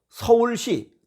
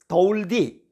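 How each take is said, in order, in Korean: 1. 단어는 분명한 s 소리로 발음돼요. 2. s 소리가 d 소리로 나와요.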